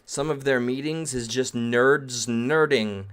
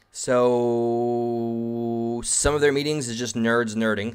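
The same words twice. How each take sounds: First: Said in the usual way. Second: Drawn-out, very slow, mock-grand delivery; slow dramatic reread. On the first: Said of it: "That's journalism one oh one right there". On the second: Shown as a demonstration. Streamer rereading the line to chat as mock drama, very slow. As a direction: savour every word like a big reveal. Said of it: "Thank you for that".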